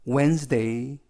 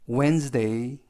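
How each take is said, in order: Both takes have the same delivery.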